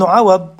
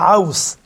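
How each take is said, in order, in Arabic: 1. ينتهي الاسم بصوت 'd' مُفخَّم. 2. ينتهي الاسم بصوت 's' مُفخَّم. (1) "أصلا أنا متعود على عوض" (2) "ابن عوص بالصاد"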